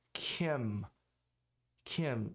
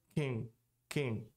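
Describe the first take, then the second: First: Kim com M final fechado; consoante final pronunciada. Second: Kim soando como "king"; consoante final não pronunciada. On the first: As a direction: feche os lábios no fim de Kim. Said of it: "Se eu não pronunciar o N". (Kim com M bem pronunciado) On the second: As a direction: diga Kim sem fechar os lábios. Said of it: "vira Kim". (Kim com final nasal, M engolido) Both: Shown as a demonstration.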